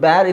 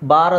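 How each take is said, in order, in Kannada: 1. ಸ್ವರದಲ್ಲಿ 'ya' ತರಹದ ಜಾರುವಿಕೆ ಇದೆ, cat ಹಾಗೆ. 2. ಸ್ವರ ಸರಳ, ದೀರ್ಘ, ತೆರೆದ 'aa'. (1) "ತು ಬ್ಯಾರ್" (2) "ಇದನ್ನು ಬಾರ್ ಅಂತಲೂ ಹೇಳಬೇಕು"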